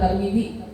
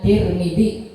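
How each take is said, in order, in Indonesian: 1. Vokal pertama a, yang kedua i. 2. Dua vokal pertama keduanya i. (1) "fathah ta dan kasrah mim" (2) "paling masyhur bacaannya Tirmidzi"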